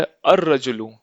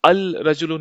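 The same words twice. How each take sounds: First: अर-रजुलु with long doubled r; silent L. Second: अल-रजुलु with L kept before r; wrong reading, L sounded. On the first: Teacher reads what is written, अर-रजुलु with L silent. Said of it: "अल-रजुलु नहीं पढ़ेंगे". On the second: Teacher shows the reading to avoid, अल-रजुलु with clear L. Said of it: "नहीं पढ़ेंगे". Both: Shown as a demonstration.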